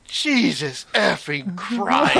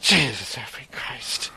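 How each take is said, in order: First: Slow, drawn-out annoyed oath; exasperated curse. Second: Whispered, slow muttered oath; under his breath. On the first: Retold or imitated. Traveler at airport exit curses at blocking crowd, slow and annoyed. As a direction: let it out slowly in frustration. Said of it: "don't realize how loud I say it". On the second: Shown as a demonstration. Traveler curses under his breath at the crowd, whispering. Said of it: "it was under my breath like that".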